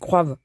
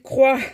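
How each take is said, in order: First: The verb ends with a v sound. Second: The verb ends without a v sound. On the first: The speaker calls it wrong. "Je sais, c'est pas français" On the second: The speaker calls it right. "Je le sais qu'il faut pas le dire comme ça"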